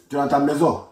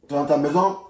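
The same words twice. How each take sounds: The two takes are said the same way.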